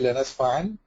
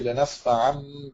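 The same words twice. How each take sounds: First: The ending is a clear n sound. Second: The ending turns into a nasal m sound. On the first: The speaker calls it wrong. "You don't pronounce the the tanween. You don't say" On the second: The speaker calls it right. "You say"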